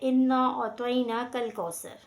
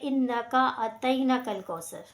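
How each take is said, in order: First: The 'k' sound comes only once, before 'al'. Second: An extra 'ka' is added after 'inna'. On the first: The speaker calls it right. "असल अदायगी जो है वो है" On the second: The speaker calls it wrong. "वो जो इसके अंदर गलती करते हैं वो है"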